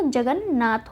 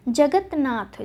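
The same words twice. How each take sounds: First: जगन्नाथ with a doubled n; n in place of t in जगन्नाथ; correct form जगन्नाथ. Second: जगतनाथ with t before n; wrong form जगतनाथ. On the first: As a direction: say जगन्नाथ as jagan-naath. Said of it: "त जो है न में बदल जाता है". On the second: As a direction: say जगतनाथ as jagat-naath. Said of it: "जगतनाथ न लिख के हम". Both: Shown as a demonstration.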